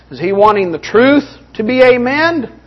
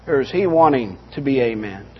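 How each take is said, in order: First: "truth" lifted high, question left rising; stress on TRUTH. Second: "he" leaned on, then dropping low and soft; pointed lower alternative, weight on "he"; stress on HE. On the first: Preacher questioning the congregation about amens, stress on "truth". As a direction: punch "truth" as the worthy option. Contrasts two motives of preacher. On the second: Preacher questioning a preacher's motive for amens, low stress on "he". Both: Real, not acted.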